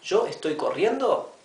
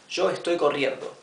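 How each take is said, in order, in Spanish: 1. Se dice con entonación de pregunta. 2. Se dice con entonación de afirmación. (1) "estoy haciendo la pregunta" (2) "Es una afirmación"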